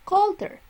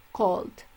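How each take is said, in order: First: Colder said much higher and louder; comparative stressed. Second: Said in the usual way. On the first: Shown as a demonstration. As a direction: push colder up high and loud. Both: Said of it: "cold, colder".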